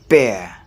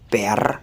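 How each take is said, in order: First: The final R sound is not pronounced. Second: The final R sound is pronounced. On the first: The speaker calls it right. "I don't pronounce that R. But I say bear" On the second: The speaker calls it wrong. "I don't say bear"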